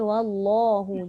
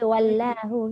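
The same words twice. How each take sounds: First: The l sound is heavy and thick. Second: The l sound is light and thin. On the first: The speaker calls it right. "Kita baca wallahu. Jadi dia ter, tebal" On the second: The speaker calls it wrong. "kita tak baca wallahu kan"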